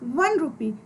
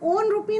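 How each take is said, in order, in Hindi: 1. 'One' 'w' ध्वनि से शुरू होता है। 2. 'One' एक साधारण स्वर ध्वनि से शुरू होता है। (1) "डब्ल्यू या वी की ध्वनि दे रहा है" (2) "हम ओन रुपी नहीं बोल रहे"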